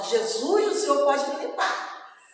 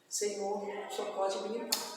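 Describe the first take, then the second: First: It is said as a forceful exclamation. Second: It is said as a plain, flat statement.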